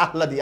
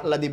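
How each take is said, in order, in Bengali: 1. হ ধ্বনিটি ল-এর আগে আসে। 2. হ ধ্বনিটি ল-এর আগে আসে।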